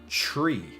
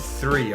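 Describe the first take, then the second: First: The word begins with a hard t sound. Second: The word begins with a soft th sound. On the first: "in Ireland ... we say one, two, tree" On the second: "that's the correct in English. ... a proper th sound on the T H"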